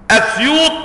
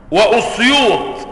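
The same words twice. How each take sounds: First: أسيوط opened on a short "a"; fatha on hamza. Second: وأسيوط with a short "u" on the hamza; damma on hamza. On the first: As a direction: say أسيوط with an opening "a", Asyut. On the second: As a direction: say وأسيوط as wa-Usyut, with "u" after wa. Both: Shown as a demonstration. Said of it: "بالضم وبالفتح".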